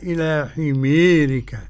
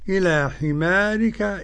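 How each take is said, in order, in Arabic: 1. الحرف الممدود مُمال نحو صوت e. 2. الحرف الممدود صوت a مفتوح. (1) "والإمالة" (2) "بالفتح"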